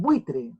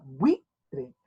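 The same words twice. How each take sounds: First: Said in the usual way. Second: "buitre" slowly split, bui-tre; syllable by syllable. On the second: Shown as a demonstration. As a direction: clear pause between bui and tre in "buitre". ("buitre" lento, separado en bui-tre) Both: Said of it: "Buitre se separa así".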